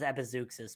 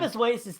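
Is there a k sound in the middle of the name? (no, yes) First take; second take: yes; no. First: The middle of the name has a k sound. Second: The middle of the name has no k sound. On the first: The speaker calls it right. "the X is pronounced like a K" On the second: The speaker calls it wrong. "Epizoasis does sound cool"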